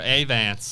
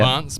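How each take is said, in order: First: It is said with an American accent. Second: It is said with a London accent.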